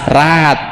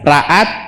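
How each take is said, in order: First: The a sounds merge into one long vowel. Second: A glottal catch separates the two a sounds. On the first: "Kalau alif" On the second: "berarti hamzah"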